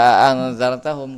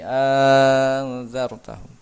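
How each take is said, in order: First: The opening vowel is held short. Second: The opening vowel is stretched to six counts. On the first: The speaker calls it wrong. "Tidak anzartahum" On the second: The speaker calls it right. "tapi anzartahum"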